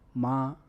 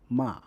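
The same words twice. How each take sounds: First: The pitch stays high and level throughout. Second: The pitch falls sharply from high to low. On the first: "The first tone is a high flat sustained tone" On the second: "The fourth tone is a sharp, falling tone"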